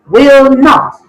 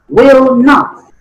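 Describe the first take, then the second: Both takes have the same delivery.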